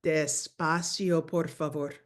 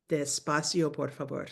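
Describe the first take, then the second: First: Slow model phrase; teacher modelling slowly; slow, drawn-out. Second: Said in the usual way. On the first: Shown as a demonstration. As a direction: say it slowly, clearly. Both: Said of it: "we need to say".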